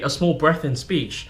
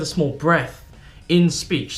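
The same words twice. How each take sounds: First: It is said without a pause after breath. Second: There is a short pause after breath.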